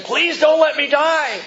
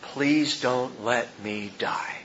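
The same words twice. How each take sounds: First: Higher, louder, slow begging plea; frightened plea. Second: Soft, slow, pained murmur of a dying man; faint dying plea. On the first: Preacher mimics a dying man begging in fear. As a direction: beg like a man terrified of dying. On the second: Dying president mouthing his last words, faint and slow. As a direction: barely mouth the words as life slips away. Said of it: "mouthing these final words". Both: Retold or imitated.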